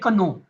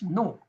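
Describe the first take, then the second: First: The word starts with a k sound. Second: The word starts without a k sound. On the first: The speaker calls it wrong. "You never say kano" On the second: The speaker calls it right. "You say it's no"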